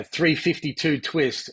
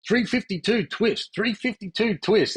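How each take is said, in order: First: Said in the usual way. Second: Teammates mimicking an Aussie accent, high and slow; American players teasing the Aussie with an over-the-top Aussie accent; mock Aussie accent. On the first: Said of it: "They'd all try and do the, the Aussie accent". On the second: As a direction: lampoon the Aussie accent with a higher, slower "Three fifty-two twist". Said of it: "the Aussie accent".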